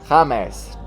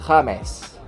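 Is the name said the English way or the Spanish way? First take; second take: Spanish; Spanish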